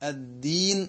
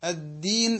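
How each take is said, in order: The two takes are said the same way.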